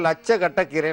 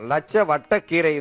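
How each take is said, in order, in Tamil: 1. நடுவில் உள்ள வார்த்தை 'k' ஒலியில் தொடங்குகிறது. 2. நடுவில் உள்ள வார்த்தை 'v' ஒலியில் தொடங்குகிறது. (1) "வழக்கத்துல வந்து" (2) "இது வந்து அதனுடைய மருத்துவ பெயர்"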